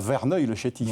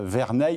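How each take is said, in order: First: The last syllable sounds like 'neuil'. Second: The last syllable sounds like 'neil'. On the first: The speaker calls it wrong. "et non pas Verneuil-le-Chétif" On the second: The speaker calls it right. "Verneil et non pas"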